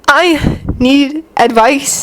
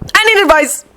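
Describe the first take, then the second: First: The phrase is said at a calmer pace. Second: The phrase is rushed out quickly. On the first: The speaker sounds more composed. The speaker calls it right. "that sounded a little more coherent" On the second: The speaker sounds flustered. The speaker calls it wrong. "maybe I said that a bit too fast"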